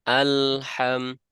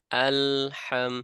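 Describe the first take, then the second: Both takes have the same delivery.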